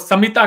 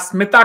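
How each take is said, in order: First: A vowel is inserted between the s and m. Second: The name begins with an s-m consonant cluster. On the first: "वो समिता कहेंगे" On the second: "आप प्रदीप कहें या स्मिता कहें"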